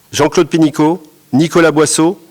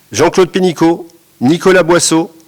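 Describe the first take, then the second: Both takes have the same delivery.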